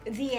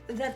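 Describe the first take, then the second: First: The word ends in a long 'ee' vowel. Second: The word ends in a short, weak 'uh' vowel. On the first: The next word starts with a vowel. "we use the when it is followed by a vowel" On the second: The next word starts with a consonant. "we use the if it is followed by a consonant"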